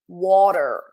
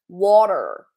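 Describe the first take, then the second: No difference in how they are said.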